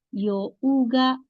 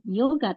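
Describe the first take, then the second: First: The first vowel is long. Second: The first vowel is short. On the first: The speaker calls it right. "panjang ya, ... tapi yoga" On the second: The speaker calls it wrong. "jangan yoga"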